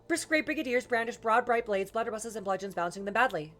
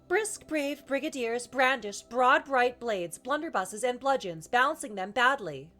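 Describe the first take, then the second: First: It is said as fast as possible. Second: It is said at an ordinary speaking speed. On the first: "as fast as I can" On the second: "start kind of normal speed"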